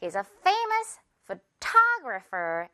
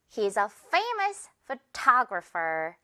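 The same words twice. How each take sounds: First: Slow again, ta in photographer stressed; same model once more, steady; calm repeat of the example. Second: Slow, ta in photographer stressed; slow careful example read. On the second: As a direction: model the sentence, leaning on ta. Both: Shown as a demonstration. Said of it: "이렇게 타 부분에 강세 준다는 거".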